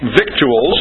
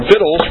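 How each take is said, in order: First: "victuals" said as spelt, VIK-choo-uls; spelling pronunciation. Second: "victuals" said as VITT-ulz; traditional pronunciation. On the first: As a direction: sound the c and u in "victuals", slowly. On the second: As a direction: silent c in "victuals", rhyming with skittles. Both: Shown as a demonstration. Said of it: "or victuals".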